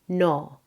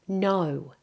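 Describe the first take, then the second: First: The vowel is a single steady o sound. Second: The vowel glides as a double vowel. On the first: The speaker calls it wrong. "Many non-native speakers make it more like o" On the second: The speaker calls it right. "It should be oh"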